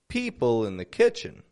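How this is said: The words 'in' and 'the' are soft and unstressed. The speaker calls it right. "Notice the words in the are both unstressed"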